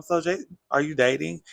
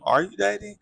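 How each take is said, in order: First: Said in the usual way. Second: Higher, louder teasing echo; mocking echo. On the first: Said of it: "just Miss Stacy asked Giselle". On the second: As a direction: echo the question high and teasing. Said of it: "And everybody was like".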